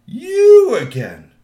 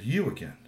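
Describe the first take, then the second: First: Loud, high, drawn-out roar; big slow shout. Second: Said in the usual way. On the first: Acted. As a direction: blow up at the third teen, very slow. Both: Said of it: "he said that three times".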